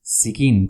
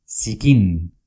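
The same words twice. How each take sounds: First: Zikin repeated crisply, Z as s, first syllable stressed; Basque word Zikin. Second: Zikin said slowly and clearly, the Z as a crisp s, stress on the first syllable; Basque word Zikin. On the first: Teacher repeats Zikin for students, clear and crisp. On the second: Teacher models Zikin for students, crisp and clear. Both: Shown as a demonstration. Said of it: "con Z".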